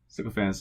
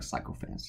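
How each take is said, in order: First: The first syllable sounds like 'sick'. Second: The first syllable sounds like 'psych'. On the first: "sycophants is the right way to say it" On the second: "I always like psychophants just because they're psychotic"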